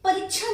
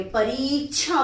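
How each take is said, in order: First: "परीक्षा" with a short i, parichha; wrong short vowel. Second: "परीक्षा" with a drawn-out ee; correct long vowel. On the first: Teacher showing the error, "परीक्षा" with short i. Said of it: "परीक्षा नहीं बोलते". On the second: Teacher correcting students, "परीक्षा" with long ee. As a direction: stretch pa-reee before the end of "परीक्षा". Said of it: "परीक्षा बोलते हैं". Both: Shown as a demonstration.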